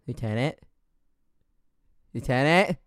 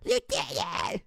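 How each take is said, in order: First: Questioning call, rising each time; puzzled teammate calling. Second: High, strained mock scream, held back in volume; imitated scream. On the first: Retold or imitated. Imitating Panda calling a frozen teammate, puzzled and questioning. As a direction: check in on a teammate, a little more insistent the second time. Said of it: "And Panda's like". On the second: Imitating a teammate killed while the lieutenant froze, strained mock scream. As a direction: scream it thinly without full volume. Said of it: "she screams at the top of her lungs".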